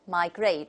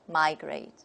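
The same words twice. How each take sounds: First: The stress is on the second syllable. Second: The stress is on the first syllable. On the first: "the stress is on the second syllable" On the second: "the opposite"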